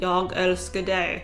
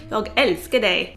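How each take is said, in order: First: The phrase is said with flat, monotone pitch. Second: The phrase is said with lively, varied pitch. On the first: The speaker calls it wrong. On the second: The speaker calls it right.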